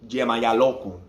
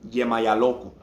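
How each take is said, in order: The two takes are said the same way.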